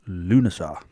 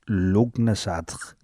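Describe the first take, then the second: First: It is said without a hard g sound. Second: It is said with a hard g sound. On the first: The speaker calls it right. "I found that this is how you pronounce it" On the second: The speaker calls it wrong. "to look at it phonetically, it says"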